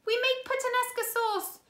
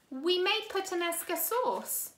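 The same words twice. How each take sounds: First: Desperate cry. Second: Said in the usual way. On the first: A narrator's reading. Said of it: "Violet cried".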